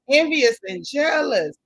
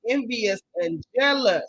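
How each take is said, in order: First: Slower and louder, weight on "Envious"; hammered-home insult; emphatic repeat. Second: Slow, deliberate "envious and jealous"; unhurried jab; slow name-calling. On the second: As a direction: spell out the insult slowly. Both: Acted.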